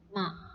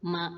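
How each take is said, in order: First: It is said with the nose pinched shut. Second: It is said with sound flowing through the nose. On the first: The speaker calls it wrong. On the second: The speaker calls it right.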